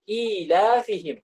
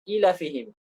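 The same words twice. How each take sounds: First: "ilafihim" with long, held i and la; long vowels in ilafihim. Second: "ilafihim" with short, quick opening vowels; untaught short-vowel reading. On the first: Teacher reads the unwritten letters aloud, "ilafihim" with long vowels. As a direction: draw out the opening vowels of "ilafihim". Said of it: "tidak ditulis, tapi dibaca". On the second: Imitating someone learning without a teacher, "ilafihim" with short vowels. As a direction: read "ilafihim" without lengthening i or la. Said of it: "belajar tanpa guru". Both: Shown as a demonstration.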